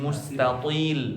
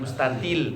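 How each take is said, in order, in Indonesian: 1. Bunyi t-nya tebal dan dipanjangkan. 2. Bunyi t-nya tipis dan ringan. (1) "tapi mustatil. Panjang to-nya" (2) "bukan pakai tak, bukan mustatil"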